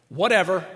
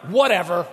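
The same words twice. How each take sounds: First: Dismissive whatever. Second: Louder, flat brush-off; dismissive whatever. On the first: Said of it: "Say that one in a conversation". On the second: Spouse brushing off partner, loud dismissive whatever. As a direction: toss it away with contempt. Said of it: "dismiss them as a human being". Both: Retold or imitated.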